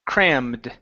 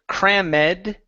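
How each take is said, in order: First: The ending adds no extra syllable. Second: The ending is said as an extra syllable. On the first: The speaker calls it right. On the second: The speaker calls it wrong. "Instead of"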